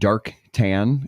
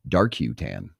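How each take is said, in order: First: The first word is said as one syllable. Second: The first word ends with an extra 'you' syllable. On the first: "There's another business called Dark Tan" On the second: "but it's Dark U Tan"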